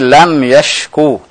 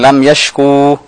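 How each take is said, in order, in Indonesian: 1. Vokal akhirnya dipendekkan. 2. Vokal akhirnya dipanjangkan. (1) "Tapi lam yashku" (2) "Bukan lam yashku"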